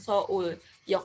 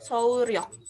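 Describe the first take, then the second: First: It goes straight into yok with no r. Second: An r sound is inserted before yok. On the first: The speaker calls it wrong. "bukan Seoul Yok aja" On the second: The speaker calls it right. "dibacanya Seoul-ryok"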